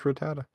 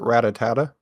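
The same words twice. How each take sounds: First: The name has no extra syllable added. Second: The name has an extra syllable added. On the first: The speaker calls it right. "it's just Rattata" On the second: The speaker calls it wrong. "I used to pronounce it Rattata. ... like a extra T-A"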